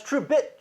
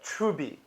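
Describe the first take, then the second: First: Said in the usual way. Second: Trubi, softer, with no closing t; dropped final t. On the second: Shown as a demonstration. Driving home the confusion, Truebit shortened to Trubi without its t. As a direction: leave Trubi open on bee. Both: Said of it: "They would pronounce Truebit".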